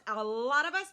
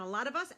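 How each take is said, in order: First: LOT stretched out long and loud; stress on LOT. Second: Said in the usual way. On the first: Real, not acted. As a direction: lean hard and long on "lot". Repeats it with heavy emphasis.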